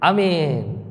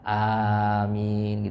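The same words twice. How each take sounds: First: The first vowel is cut short. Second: The first vowel is drawn out long. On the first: Far away. The speaker calls it wrong. "Kalau hamzahnya dipendek, amin itu maknanya baid, jauh. Kebanyakan kita nih" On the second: Answer our prayer. The speaker calls it right. "Hamzahnya harus dipanjangkan"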